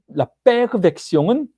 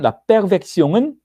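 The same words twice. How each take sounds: First: The word is said at a normal pace. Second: The word is said quickly, run together. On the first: It means the father's version. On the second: It sounds like perversion.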